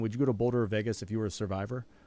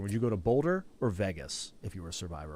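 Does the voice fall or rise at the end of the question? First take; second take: rise; fall. First: The voice rises at the end, asking yes or no. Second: The voice falls at the end, offering two options. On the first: It asks whether he would go to either place at all. "the second type of inflection" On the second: The listener must pick one of the two places. "that depends on how, how I read the question"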